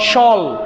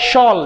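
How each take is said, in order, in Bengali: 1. শেষাংশটি এক দাড়িতে বলা হয়, 'shul'। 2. শেষাংশটি এক দাড়িতে বলা হয়, 'shul'।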